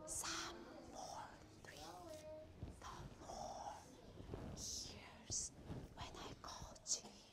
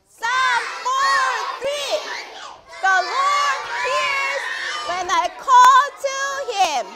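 First: It is said in a small, quiet voice. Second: It is shouted in a very loud voice.

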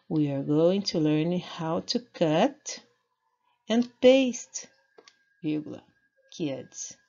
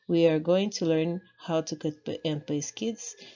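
First: There is a break before the word kids. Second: There is no break before the word kids. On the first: The children are told they will learn to cut and paste. "Agora com a vírgula" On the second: The children themselves get cut and pasted. "Sem vírgula alguma fica"

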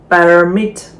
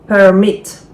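The two takes are said the same way.

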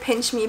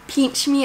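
First: It is said in a standard accent. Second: It is said in a Texan accent.

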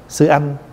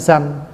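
First: The two syllables are said separately and clearly. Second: The two syllables run together into one quick syllable.

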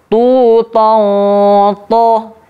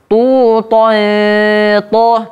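First: The nasal before the t sounds heavy and thick. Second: The nasal before the t sounds light and thin. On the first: The speaker calls it right. "ikhfanya di sini ditebalkan" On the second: The speaker calls it wrong. "tidak kita baca"

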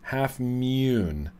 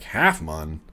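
First: The second word has a long 'oo' vowel. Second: The second word has a short 'uh' vowel. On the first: The speaker calls it right. "you're supposed to pronounce it like Mune" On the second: The speaker calls it wrong. "I thought they were called Half Mun"

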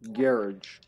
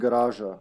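First: It is said with an American pronunciation. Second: It is said with a Serbian pronunciation. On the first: "in America, it would be garage" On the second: "Like in Serbia, we would say garage"

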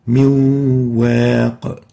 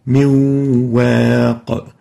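First: The noon merges into the following waw sound. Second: The noon merges into the following waw sound.

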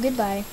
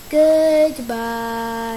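First: It is said at normal speed. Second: It is said slowly.

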